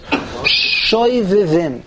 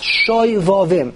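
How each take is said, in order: First: The second vowel sounds like 'ee'. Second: The second vowel sounds like 'ah'. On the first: The speaker calls it wrong. "most people pronounce it, I've discovered, Shoivivim. There's no such word" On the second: The speaker calls it right. "It comes from a pasuk in Yirmiyah"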